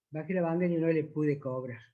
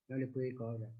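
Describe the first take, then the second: First: Said in the usual way. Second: Much softer and lower, touched; quietly moved. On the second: Retold or imitated. Taxi driver recalls grandfather he couldn't charge, softly moved. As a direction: let it fall away, moved by the memory. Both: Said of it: "me emocionó tanto".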